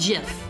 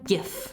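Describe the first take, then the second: First: It begins with a soft J sound. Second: It begins with a hard G sound. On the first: The speaker calls it wrong. "It is not giraffics interchange format" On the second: The speaker calls it right. "It is graphics interchange format"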